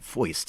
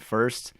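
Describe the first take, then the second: First: The vowel sounds like oy, Brooklyn style. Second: The vowel is a plain standard er sound.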